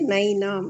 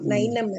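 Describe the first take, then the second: First: The vowel before the final nasal is long. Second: The vowel before the final nasal is short. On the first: The speaker calls it right. "ಈ ನೈನಾಂ ಪ್ರಭುಜಿ ದೀರ್ಘ ಇದೆ" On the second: The speaker calls it wrong. "ನೈನಂ ಅಲ್ಲ"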